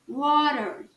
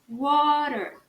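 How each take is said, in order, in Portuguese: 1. O R final é bem pronunciado. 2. O R final é bem pronunciado.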